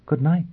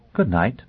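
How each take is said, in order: First: Light, high, final; Olivia's voice. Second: Lightly lilting lady's goodbye, rising at the end; composed, polite dismissal; gracious farewell. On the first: Acted. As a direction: repeat it sweetly. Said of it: "she repeated". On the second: A narrator's reading. Noblewoman bidding her guest good night, gracious. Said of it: "she was Lady Olivia again, the gracious snow maiden".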